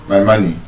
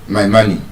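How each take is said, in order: The two takes are said the same way.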